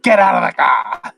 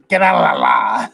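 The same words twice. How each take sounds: First: High mock yell, words running together; hammed-up, high bellow; garbled furious yell. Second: "Get out of the car!" mashed into one slurred cry; mock yell, "out of the car" dissolving into la-la sounds; barely articulated yell. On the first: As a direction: imitate an enraged driver ordering someone out. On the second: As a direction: yell "Get out of the car!" with its consonants nearly lost. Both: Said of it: "he sort of doesn't even say it".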